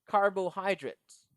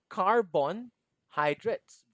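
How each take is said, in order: First: No n sound follows the first two syllables. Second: An n sound follows the first two syllables. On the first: The speaker calls it right. "It's carbo" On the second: The speaker calls it wrong. "it's not carbon"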